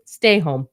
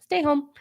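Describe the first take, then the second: First: Said in the usual way. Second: High playful stay home. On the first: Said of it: "first take". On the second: Real, not acted. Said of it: "repeat, higher".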